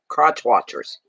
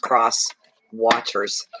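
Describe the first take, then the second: First: The first word ends with a ch sound. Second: The first word ends with an s sound. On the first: The speaker calls it wrong. "It comes out that way" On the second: The speaker calls it right. "I know it's cross watchers"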